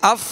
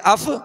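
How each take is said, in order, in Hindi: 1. अंतिम F अपने उच्चारण स्थान पर रुककर खत्म होता है। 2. अंतिम F एक अतिरिक्त हरकत के साथ छोड़ा जाता है। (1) "ये मखरज ही पर आवाज खत्म होती है" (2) "इसको हटाना नहीं ... नहीं करना, वरना इसमें हरकत या जुम्बिश पैदा होगी"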